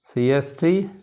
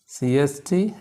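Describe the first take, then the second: No difference in how they are said.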